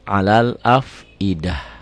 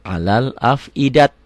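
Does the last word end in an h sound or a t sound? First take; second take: h sound; t sound. First: The last word ends with an h sound. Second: The last word ends with a t sound. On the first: The speaker calls it right. "tapi alal afidah" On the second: The speaker calls it wrong. "bukan, bukan alal afidat"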